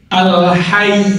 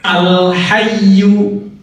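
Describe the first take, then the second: First: The word ends on a held consonant. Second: The word ends with a final vowel sound.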